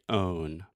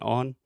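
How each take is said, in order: First: The vowel is long and drawn out. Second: The vowel is short and clipped. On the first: The speaker calls it right. "make this sound a little bit longer" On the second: The speaker calls it wrong. "Alexia's saying on"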